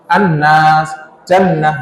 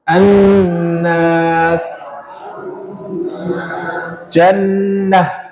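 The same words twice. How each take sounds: First: The nasal n sound is cut short, not held. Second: The nasal n sound is held for a while. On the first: The speaker calls it wrong. "nggak langsung an-nas jannah, enggak" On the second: The speaker calls it right. "Berarti kan ada masa ditahannya ya"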